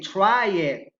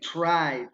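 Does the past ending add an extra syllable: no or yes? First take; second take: yes; no. First: The ending is said as an extra syllable. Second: The ending is a plain d sound. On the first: The speaker calls it wrong. "we don't say try it" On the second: The speaker calls it right. "we say try"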